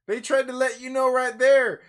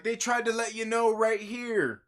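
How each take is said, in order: First: Louder emphatic repeat. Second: Said in the usual way. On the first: Real, not acted. Reviewer to viewers, insisting the clue was there, louder. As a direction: push it out harder and louder the second time.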